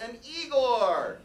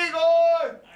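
First: Said in the usual way. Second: Igor! yelled high and much louder; calling out. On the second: Acted. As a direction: bellow Igor across the hall. Host calls assistant loudly.

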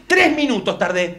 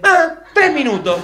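First: Slow, deliberate announcement; pointed complaint. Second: High, loud comic echo; mock exclamation. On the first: Acted. Argentine reporting his timed walk, slowly and pointedly. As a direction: spell out the result slowly. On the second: Argentine mocking the wrong estimate, high exclamation.

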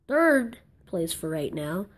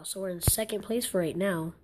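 First: Slow, stretched "Third"; correcting stress on Third. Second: Said in the usual way. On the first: Real, not acted. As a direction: correct yourself, leaning hard on "Third". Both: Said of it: "Rephrase it".

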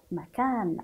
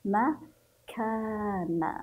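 First: Said in the usual way. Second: "مكان" very slowly as ma, pause, long kaan; open kaf, drawn out. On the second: Shown as a demonstration. Teacher demonstrates the fatha to pupils, "مكان" stretched in syllables. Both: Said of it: "سنفتح الكاف عند النطق".

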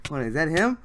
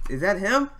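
First: Higher and louder, asking in disbelief; can't believe who just showed up; startled, eager question; excited disbelief. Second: Higher still, near a squeal of disbelief; asking again, now almost yelping; louder, higher repeat of the question; rising excitement. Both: Real, not acted. Disbelief at spotting idol.

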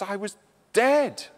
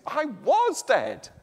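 First: "dead" landed with a falling finish; "I was dead" with the weight on "dead"; stress on dead. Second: "was" pitched high and held, then "dead" falls; "I WAS dead", the past tense pointed out; stress on was. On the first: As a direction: lean on the word "dead". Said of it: "the word I thought about was dead". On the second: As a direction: hit the word "was" higher and slower. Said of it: "we can think about the word was". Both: Shown as a demonstration.

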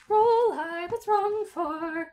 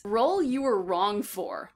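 First: Pitched way up and drawn out; lifted, slow echo of the prompt; high, slow musing repeat. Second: Said in the usual way. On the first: Shown as a demonstration. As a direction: savor the question slowly up high.

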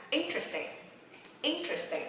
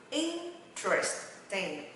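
First: "Interesting" in one quick go, high first syllable, falling; quick reading. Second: "Interesting" broken slowly into "in - tres - ting"; slow syllable demo. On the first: Teacher speeding the drill up for learners, quick "Interesting". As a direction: run "Interesting" together fast. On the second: Teacher drilling learners, very slow "Interesting". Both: Shown as a demonstration. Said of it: "Đọc nhanh ha".

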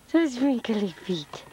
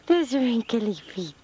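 Both takes have the same delivery.

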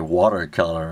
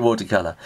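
First: Watercolour said the American way; imitated American pronunciation of watercolour; American accent. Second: Said in the usual way. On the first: Shown as a demonstration. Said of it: "in American you hear watercolour". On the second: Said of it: "watercolour in your British accent".

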